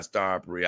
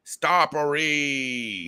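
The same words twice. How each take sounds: First: Said in the usual way. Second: Long drawn-out, higher-pitched call; hammed-up, sustained cry with a very long final vowel; mock screamed-out call. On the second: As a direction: stretch the name out like a mock holler. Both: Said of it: "He was just screaming out".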